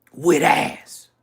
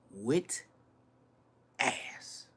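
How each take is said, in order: First: Punched out loud for effect; loud emphasis. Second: Soft whispered repeat of "With ass"; whispered echo. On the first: To viewers about Atlanta women, loud emphatic. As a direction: hit "With ass" hard and loud. Stressing the point twice, loud then whispered. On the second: To viewers, echoing himself in a whisper. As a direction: drop "With ass" to an unvoiced whisper. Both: Real, not acted.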